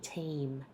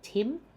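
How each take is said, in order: First: The vowel is a long E sound. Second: The vowel is short, like in Tim. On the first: The speaker calls it right. "It's a long E vowel" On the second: The speaker calls it wrong. "I often hear people say Tim, which sounds like the name Tim"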